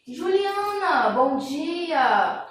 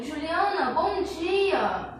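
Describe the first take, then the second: First: Juliana drawn out slowly, then a bright bom dia; cheerful exclamation greeting; exclaimed greeting. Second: Quicker, lighter Juliana, bom dia; upbeat repeated greeting; exclaimed greeting. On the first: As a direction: greet her with real feeling. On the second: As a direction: say it again with a lively lift. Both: Shown as a demonstration. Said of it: "esse bom dia tá expressando um sentimento".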